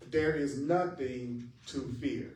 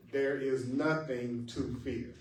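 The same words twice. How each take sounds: First: "There" leaned on, the rest slow and even; slow line with the weight on "There"; stress on THERE. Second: "nothing" leaned on, slow and even; slow line with the weight on "nothing"; stress on NOTHING. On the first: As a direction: open by pressing on "There". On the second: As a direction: press on "nothing". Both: Shown as a demonstration. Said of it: "put emphasis on certain words".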